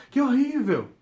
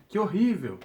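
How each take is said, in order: First: Grito agudo e forte de espanto em "Que horrível!"; exclamação de horror. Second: "Que horrível!" com espanto leve, pouco mais alto; exclamação mais contida. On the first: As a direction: exclame "Que horrível!" bem alto, chocado. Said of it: "a gente consegue perceber pela entonação da pessoa". ("Que horrível!" exclamado com espanto, mais alto e agudo) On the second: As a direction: um "Que horrível!" menos enfático. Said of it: "pra deixar bem claro". ("Que horrível!" exclamado de leve) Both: Shown as a demonstration.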